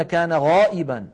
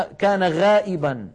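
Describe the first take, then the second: First: غائبا with a full, dark غا. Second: غائبا with a thinned front-vowel غا; light wrong ghayn. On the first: Teacher shows how Arabs say it, heavy غائبا. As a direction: lift the first letter of غائبا to the palate. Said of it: "بل يقولون". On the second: Teacher shows what Arabs don't say, light غائبا. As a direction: say غائبا without heaviness. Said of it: "ولا يقولون". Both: Shown as a demonstration.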